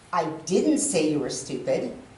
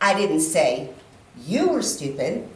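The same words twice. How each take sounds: First: The stress is on the word 'didn't'. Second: The stress is on the word 'you'. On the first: The speaker wanted to say it but held back. "that would mean I wanted to, but I didn't" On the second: It was said about someone else. "maybe the person sitting next to you, but not you"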